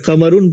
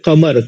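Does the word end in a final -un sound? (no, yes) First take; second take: yes; no. First: The word ends with a final -un sound. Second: The word ends without a final -un sound. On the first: The speaker calls it wrong. "कमरुन नहीं पढ़ेंगे अगर कमरुन पढ़ेंगे तो गोया के गलत होगा" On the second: The speaker calls it right. "पढ़ा कैसे जाएगा कमर बस हम इसको पढ़ेंगे कमर"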